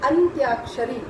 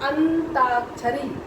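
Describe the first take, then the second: First: It is said 'antyakshari' with a 'y' sound. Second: It is said 'antakshari' with no 'y' sound. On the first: The speaker calls it right. "अंत्याक्षरी जो है ये उचित शब्द है" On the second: The speaker calls it wrong. "बहुत लोग बोलते हैं अंताक्षरी, अंताक्षरी गलत है"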